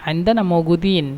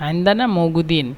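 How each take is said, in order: The two takes are said the same way.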